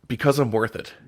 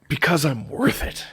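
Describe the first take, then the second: First: It is read out flatly, without feeling. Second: It is said with dramatic, heartfelt conviction.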